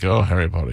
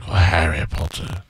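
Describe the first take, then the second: First: It is said in a plain, casual tone. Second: It is said in a lovesick, obsessed tone.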